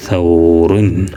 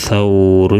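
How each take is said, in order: First: സൗറുൻ stretched out very slowly; slow model reading. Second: Said in the usual way. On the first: Shown as a demonstration. Teacher repeats the word slowly so pupils hear it. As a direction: draw out സൗറുൻ for the learners. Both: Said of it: "വായിച്ച് നോക്കുമ്പോൾ".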